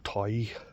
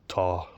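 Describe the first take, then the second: First: The vowel is a gliding 'eye' sound. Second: The vowel is an open 'aw' sound.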